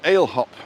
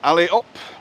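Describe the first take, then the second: First: The name is said the British way. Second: The name is said the local way. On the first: The speaker calls it wrong. "as the Brits say" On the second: The speaker calls it right. "But it's Ali Up"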